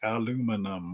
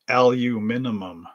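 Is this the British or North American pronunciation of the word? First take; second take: North American; British. First: It is said the North American way. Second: It is said the British way. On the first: "in Canada, and I do believe in the US, we say aluminum as like aluminum" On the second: "But in Britain, in England, in Australia, they would say aluminum"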